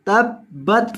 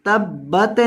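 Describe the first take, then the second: First: तब्बत ending in a firm unmoving t; still final t. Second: तब्बत with the final t bounced and moved; wrong shaken ta. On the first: Teacher gives students the correct reading with still t. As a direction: end तब्बत on a clean steady t. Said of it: "तब्बत नहीं". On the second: Teacher imitates the students' error of shaking the t. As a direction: let the t of तब्बत wobble as a mistake. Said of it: "इसको हिलाना नहीं है". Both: Shown as a demonstration.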